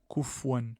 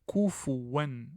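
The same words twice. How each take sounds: First: The vowel after the f is dropped. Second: The vowel after the f is clearly pronounced. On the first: The speaker calls it wrong. "ça se lit pas de cette façon" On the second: The speaker calls it right. "faire apparaître le, la damma"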